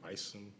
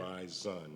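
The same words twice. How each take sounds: First: The middle consonant is an S sound. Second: The middle consonant is a Z sound. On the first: The speaker calls it wrong. "not bison" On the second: The speaker calls it right. "it's like B I Z O N. That's how it's pronounced"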